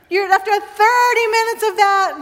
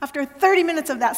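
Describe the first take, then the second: First: After thirty minutes of that restarted higher and louder; higher, louder retake of the line; amused restart. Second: Said in the usual way. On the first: Shown as a demonstration. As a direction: pick it up again over the laughter, brighter. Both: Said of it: "stop laughing".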